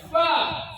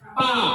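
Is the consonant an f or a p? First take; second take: f; p. First: The lips stay apart, making an f sound. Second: The lips touch, making a p sound. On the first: The speaker calls it right. "bibirnya jangan bersentuhan ... ada nafas keluar" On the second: The speaker calls it wrong. "Pa katanya bersentuhan bibirnya, salah"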